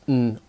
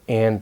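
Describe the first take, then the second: First: The word is reduced to a short n sound. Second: The word is said in its full form. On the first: "becomes n" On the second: "like and becomes n"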